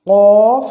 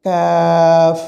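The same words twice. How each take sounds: First: কফ as a loud, long "qoof"; কফ thick, held and rising; contrasted heavy letter. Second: কাফ as a thin, long "kaaf"; কাফ with a light k, drawn out; contrasted light letter. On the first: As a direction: push কফ from the tongue root with a rounded vowel. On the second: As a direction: hold an open "aa" in কাফ on a steady note. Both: Shown as a demonstration. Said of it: "দুটো একসঙ্গে বলার উদ্দেশ্য".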